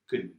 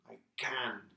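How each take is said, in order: First: The word has a weak, reduced vowel. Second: The word has a full, clear vowel. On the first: "Normally we say kun" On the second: "we have the strong pronunciation"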